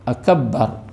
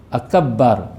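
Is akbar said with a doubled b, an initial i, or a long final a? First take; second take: doubled b; doubled b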